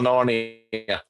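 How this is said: It is said in a put-on Australian-style accent. "that's going to be more Narnia"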